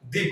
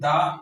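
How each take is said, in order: First: The vowel is a long ee sound. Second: The vowel is a short uh sound. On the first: The speaker calls it right. "उसको हम दी पढ़ते हैं" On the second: The speaker calls it wrong. "दा ना पढ़"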